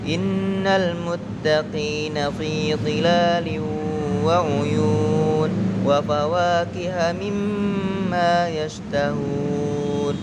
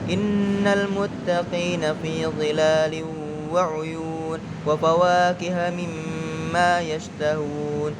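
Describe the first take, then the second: First: It is recited at a moderate pace. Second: It is recited quickly. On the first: "diantara kecepatan sedang dan cepat" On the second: "bacaannya dengan cepat"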